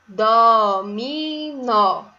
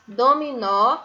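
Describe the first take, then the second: First: "Dominó" very slow and loud, "DÓÓ-miii-NÓ"; syllable by syllable. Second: Said in the usual way. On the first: Shown as a demonstration. Teacher reading the spelling to pupils, "Dominó" in very slow syllables. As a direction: hold each beat of "Dominó" on its own. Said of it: "Vamos ver a escrita". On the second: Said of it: "se inicia com a sílaba dó".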